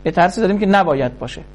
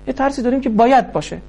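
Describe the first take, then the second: First: نباید hit as the key word, quick pace; stress on نباید. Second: باید hit as the key word, quick pace; stress on باید. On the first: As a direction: lean on نباید to set it against باید. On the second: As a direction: lean on باید to contrast. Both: Shown as a demonstration.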